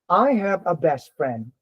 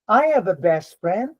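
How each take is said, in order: First: The pitch falls at the end. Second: The pitch rises at the end. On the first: The speaker calls it right. "you have to go down" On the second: The speaker calls it wrong. "when you use the rising intonation"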